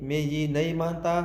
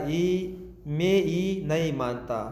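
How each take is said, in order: First: Said in the usual way. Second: ای مې یې نه یې مانتا said slowly, syllable by syllable, with the opening ای clearly voiced; careful slow demo. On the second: Shown as a demonstration. Pashto teacher corrects learners, slowly spelling out the Hindi phrase. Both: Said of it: "نو دا جمله اصلیت کې داسې ده".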